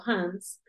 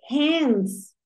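First: "hands" with an open Spanish a; "hands" with the vowel of "father"; mispronounced hands. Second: "hands" drawn out with an e-like vowel, "hends"; "hands" with the fronted vowel of "cat"; corrected hands. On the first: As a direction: say "hands" wrongly, like "hahns". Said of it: "nos acostumbramos a pronunciar mal". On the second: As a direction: say "hands" higher, as a discovery, like "hends". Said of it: "yo aprendí, yo". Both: Shown as a demonstration.

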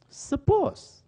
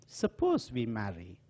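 First: Suppose thrown up high and louder; emphatic suppose. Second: Said in the usual way. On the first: Retold or imitated. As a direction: fling the word Suppose up high as a challenge. Aunt challenges boy to marry.

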